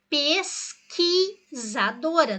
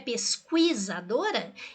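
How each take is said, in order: First: The qu is said as a plain k. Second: The qu is said as kw, u sounded. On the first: The speaker calls it right. "pode ser pronunciado como K" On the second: The speaker calls it wrong. "não é pesquisadora?"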